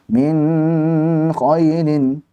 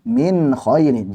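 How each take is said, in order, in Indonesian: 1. Bunyi n memiliki dengung sengau yang terlalu panjang. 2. Bunyi n diucapkan dengan jelas tanpa panjang sengau yang berlebihan. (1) "jangan min khailin" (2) "jelaskan min khailin"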